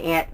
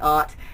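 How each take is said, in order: First: The word is said in a middle, compromise way. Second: The word is said in a posh, refined way. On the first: This is a compromise form the speaker is comfortable with. The speaker calls it right. "aunt is a good compromise for me" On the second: This sounds too uppity for the speaker to use. The speaker calls it wrong. "That just sounds too uppity"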